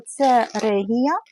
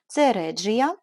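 First: "Регія" said slowly with a hard Г, every syllable drawn out; the first, hard-Г reading of "Регія". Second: The corrected, Google-approved "Реджія" with дж; corrected pronunciation. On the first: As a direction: read "Регія" with a plain hard Г, slow and deliberate. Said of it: "правильно читати так". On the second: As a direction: read "Реджія" with дж, calm and even. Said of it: "Google сказав, що правильно читати так". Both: Shown as a demonstration.

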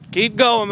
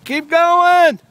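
First: Said in the usual way. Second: High, loud encouraging cheer; hoarse marathon cheering. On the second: Real, not acted. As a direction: cheer them on from afar. Cheering kid on bike.

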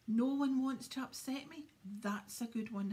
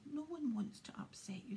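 First: Loud, wounded wail; howling. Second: Said in the usual way. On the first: A narrator's reading. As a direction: throw it back as an indignant howl. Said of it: "howled Myrtle".

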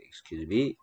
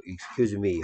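First: "Excuse me" with a rise on "me"; question-mark intonation. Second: "Excuse me" as a plain statement; no questioning lift on "me" in "Excuse me"; full-stop intonation. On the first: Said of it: "물음표 있는 경우에". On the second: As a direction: close "Excuse me" like a sentence with a period. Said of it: "마침표 있으면 되겠습니다". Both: Shown as a demonstration.

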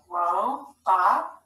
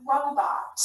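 First: "Robot" sounded out as two separate stretched syllables. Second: Said in the usual way. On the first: Shown as a demonstration. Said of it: "Scoop it". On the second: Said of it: "Read the whole word".

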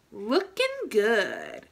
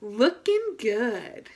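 First: Slow, drawn-out "Looking good"; slow proud self-praise; slow cheer. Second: Slow, drawn-out "Looking good" in unison; slow shared self-praise; slow cheer together. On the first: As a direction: savor each word of "Looking good". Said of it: "Look at yourself in the mirror and say". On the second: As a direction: stretch out "Looking good" with the kids. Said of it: "Let's do it together". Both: Shown as a demonstration.

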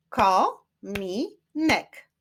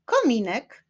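First: "Kominek" very slow, as ko, mi, nek; syllable by syllable. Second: Said in the usual way. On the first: Shown as a demonstration. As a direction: clap out "Kominek" in three separate beats. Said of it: "Wyklaszczmy sylaby". („Kominek” powoli, sylabami: ko, mi, nek) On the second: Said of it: "Wyklaszczmy sylaby w tych wyrazach".

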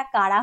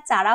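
First: "কারা" said with an initial hard k; correct pronunciation. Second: "চারা" said with an initial ch sound; mispronunciation. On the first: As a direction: say "কারা" with k in place of ch. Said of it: "এটার উচ্চারণটা কারা হয়". ("কারা", শুরুতে ক ধ্বনি দিয়ে সঠিক উচ্চারণ) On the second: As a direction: say "চারা" with ch in place of k. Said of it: "এটার উচ্চারণটা চারা হয় না". ("চারা", শুরুতে চ ধ্বনি দিয়ে ভুল উচ্চারণ) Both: Shown as a demonstration.

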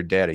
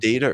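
First: "Data" said DAT-uh; first syllable of "Data" rhymes with "hat"; short-A pronunciation. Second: "Data" said DAY-tuh; first syllable of "Data" rhymes with "day"; long-A pronunciation. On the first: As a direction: say "Data" with the vowel of "cat". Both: Shown as a demonstration. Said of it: "a preference how his name is said".

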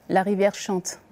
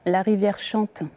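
Both takes have the same delivery.

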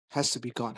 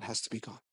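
First: Hushed awe. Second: Even lower and much softer, barely voiced; near-whisper. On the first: Retold or imitated. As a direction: say it quietly, half to herself. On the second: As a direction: let the repeat fade almost to nothing. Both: Jenna's awed, quiet answer.

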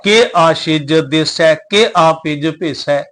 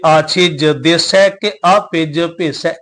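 First: "ਕੇ" leaned on in a slow chant; stress on ਕੇ. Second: "ਕੇ" kept light, weight on "ਆਪਿਜ" after it. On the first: Teacher imitating readers who press on "ਕੇ". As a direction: hit "ਕੇ" heavily each time, the wrong way. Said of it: "ਕੇ ਸ਼ਬਦ ਤੇ ਜ਼ਿਆਦਾ ਜ਼ੋਰ ਦੇ ਕੇ". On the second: Teacher showing the correct light "ਕੇ" reading. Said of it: "ਕੇ ਸ਼ਬਦ ਹਲਕਾ". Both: Shown as a demonstration.

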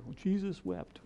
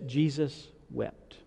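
First: Mock rote, higher and softer "Well, Jesus wept"; rote recitation. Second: Slow and soft, leaning on "Jesus"; slow solemn reading. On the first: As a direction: toss off "Jesus wept" like a memorized answer. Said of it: "We can all quote that". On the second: Shown as a demonstration. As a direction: let "Jesus wept" sink in gravely. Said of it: "I'm gonna give you a different translation".

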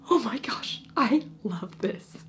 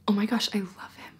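First: Breathy gushing whisper, slowing at the end; excited whisper. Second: Said in the usual way. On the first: Retold or imitated. Reader whispering her own delight over the book. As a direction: whisper it like a secret thrill. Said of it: "And I'm like". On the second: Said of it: "Evangeline is like".

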